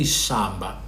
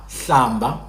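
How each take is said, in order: First: The word begins with an sh sound. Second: The word begins with a lateral hl sound. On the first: "They will say shamba. Same word, but the sound" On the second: "When you say hlamba"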